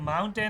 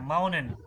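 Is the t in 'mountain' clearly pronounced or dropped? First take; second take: pronounced; dropped. First: The t is fully pronounced before the last syllable. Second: The t is dropped before the last syllable. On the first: "हम तो टेन बोलते हैं ना" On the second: "तो माउनन पढ़ना है"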